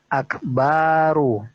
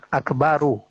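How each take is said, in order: First: The vowel after the b is drawn out long. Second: The vowel after the b is short. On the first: It turns into the word for a drum. The speaker calls it wrong. "dibuat panjang" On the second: It means the greatest. The speaker calls it right. "baknya pendek di situ satu harokat"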